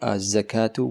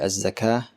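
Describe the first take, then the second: First: The word ends with its full case ending. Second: The word stops on a final h sound.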